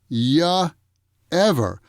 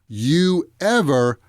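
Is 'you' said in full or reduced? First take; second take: reduced; full. First: The word you is reduced to ya. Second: The word you is said in full.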